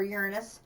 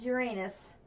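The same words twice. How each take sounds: First: "Uranus" with the stress up front and a weak middle vowel; Uranus as YOOR-uh-nus. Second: "Uranus" with the stress on a long AY in the middle; Uranus as your-AY-nus. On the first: Player offering viewers the other pronunciation, Uranus said YOOR-uh-nus. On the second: Player naming the next planet for viewers, Uranus said your-AY-nus. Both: Shown as a demonstration. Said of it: "which way you prefer to pronounce it".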